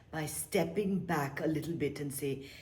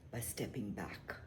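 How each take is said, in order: First: Said in the usual way. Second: Whispered. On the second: Shown as a demonstration. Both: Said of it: "whispered then repeated".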